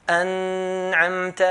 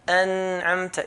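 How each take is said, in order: First: أنعمت with no held nun; correct light nun. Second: أنعمت with the nun stretched out; wrong held nun. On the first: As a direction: say أنعمت touching the nun and letting go. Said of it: "not going to hold the Nun". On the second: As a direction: say أنعمت holding the nun too long. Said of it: "أنعمت is wrong". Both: Shown as a demonstration.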